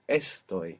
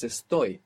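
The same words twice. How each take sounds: First: "estoy" wrongly stressed on its first syllable, ES-toy. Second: "estoy" with the accent on its ending, es-TOY; stress on last syllable. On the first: Teacher showing students the mistake, "estoy" stressed on "es". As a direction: say "estoy" with the accent up front on "es". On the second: Teacher correcting the stress for students, "estoy" stressed on "toy". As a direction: lean on "toy" in "estoy", light first syllable. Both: Shown as a demonstration. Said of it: "The accent's on the ending".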